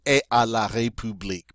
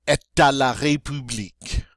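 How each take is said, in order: First: "est à la République" with no t, "eh-ah" colliding; unlinked vowels. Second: "Est à la République" with a linking t before à; linked French pronunciation. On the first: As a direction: drop the linking t in "est à". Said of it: "those two vowel sounds mashing". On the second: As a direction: run "Est à" together as "eh-ta". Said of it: "that sounds better than saying". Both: Shown as a demonstration.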